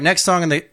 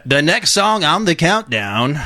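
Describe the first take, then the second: First: Said in the usual way. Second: Higher countdown-host announcer voice; Casey Kasem. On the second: Acted. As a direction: announce it like a radio chart host. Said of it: "wish I could do a Casey Kasem voice".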